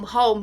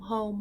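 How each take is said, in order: First: The word is said at normal volume. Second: The word is said much more softly.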